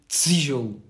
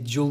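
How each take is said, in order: First: The first t is followed by an s. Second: The first t is a plain t. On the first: "diz um T e um S" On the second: "Em vez de dizer tijolo"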